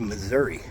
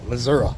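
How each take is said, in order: First: It is said in the speaker's usual way. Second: It is said the way Missourians say it.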